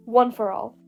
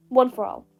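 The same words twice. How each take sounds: The two takes are said the same way.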